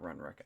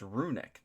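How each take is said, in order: First: The word is said as Runrick, with an extra r. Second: The word is said as Runic, without an extra r. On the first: The speaker calls it wrong. "It's not Runrick. I've just been saying it wrong the whole time" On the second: The speaker calls it right. "Or it's Runic"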